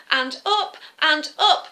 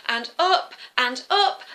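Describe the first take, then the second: No difference in how they are said.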